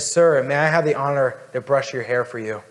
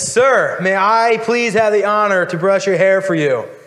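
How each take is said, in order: First: It is said at a normal, gentle volume. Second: It is said very loudly, nearly yelled.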